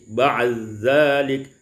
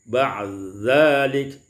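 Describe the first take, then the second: Both takes have the same delivery.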